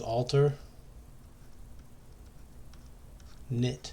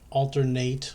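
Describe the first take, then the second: First: The last syllable sounds like 'knit'. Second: The last syllable does not sound like 'knit'. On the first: The speaker calls it right. "you really pronounce this word as alter knit, like you're knitting a sweater" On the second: The speaker calls it wrong. "Some some people want to say it's alternating or altern alternate or whatever"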